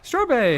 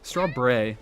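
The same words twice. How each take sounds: First: The name is said at a normal pace. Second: The name is said slowly and carefully.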